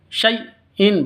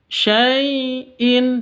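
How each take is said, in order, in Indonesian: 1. Bunyi tengahnya dipotong secara tiba-tiba. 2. Bunyi tengahnya meluncur lembut dan lentur. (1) "bukan seperti itu cara bacanya. Tapi jangan disentak" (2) "Dilenturkan, lemas. Syai'in seperti itu"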